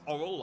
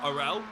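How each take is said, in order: First: The name rhymes with coral. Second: The name does not rhyme with coral. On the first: The speaker calls it right. "It's Orrell, like coral" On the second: The speaker calls it wrong. "not Orel. We've been saying it wrong"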